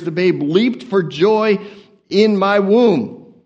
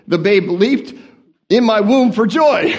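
First: Slow, drawn-out womb; deliberate slow scripture read; slow reading stumble. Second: Louder, laughing correction; rereading the verse properly, laughing; corrected reading. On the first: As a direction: read it slowly and carefully. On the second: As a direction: fix the line with a laugh. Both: Shown as a demonstration. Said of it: "I can't even read the King James correctly".

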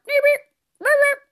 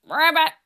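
First: "ribbit, ribbit" squeaked much higher and louder; high frog ribbit. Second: Said in the usual way. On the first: Shown as a demonstration. Host showing kids a squeaky frog ribbit, high and loud. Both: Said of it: "However you ribbit".

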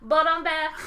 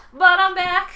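First: Gloating villain, a touch louder; hammy bad-guy boast of return; slow theatrical villain menace. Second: Loud sung gloating tag line; sung, belt it like a triumphant villain ditty; sung villain boast. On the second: Retold or imitated. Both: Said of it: "Tywin Lannister was like".

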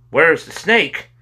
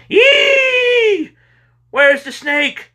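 First: High, loud, slow cry. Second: Piercing high, loud shriek, then slow question; shriek, then cry the words out high; mother's scream. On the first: Two boys crying to the mother in unison, loud. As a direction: call it out slowly, raised in pitch. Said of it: "they cried in unison". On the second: Mother rushing out to the yelling boys, screaming. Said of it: "and she screamed". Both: A narrator's reading.

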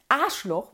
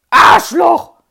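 First: Said in the usual way. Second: Arschloch yelled much louder and higher with scorn; contemptuous shout. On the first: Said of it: "ihr aller, allerliebstes Schimpfwort". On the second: Retold or imitated. Kids yell their favourite insult at the bully. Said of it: "mit so einer Verachtung und Betonung".

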